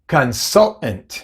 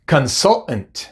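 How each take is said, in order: The two takes are said the same way.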